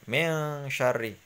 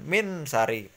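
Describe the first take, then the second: First: The n is held with a nasal hum. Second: The n is plain, without a nasal hum. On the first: The speaker calls it right. "Kalau ikhfa dengung" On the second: The speaker calls it wrong. "bukan min sari"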